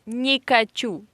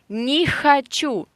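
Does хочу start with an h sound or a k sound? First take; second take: k sound; h sound. First: The second word starts with a k sound. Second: The second word starts with an h sound. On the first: It sounds like a different verb meaning to roll. The speaker calls it wrong. "you replace h with k" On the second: It means I don't want. The speaker calls it right. "So listen"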